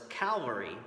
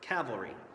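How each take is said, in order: First: The L sound comes near the front. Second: The L sound comes near the end. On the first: The speaker calls it wrong. "where the L is up towards the front" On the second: The speaker calls it right. "where the L is towards the end of the word"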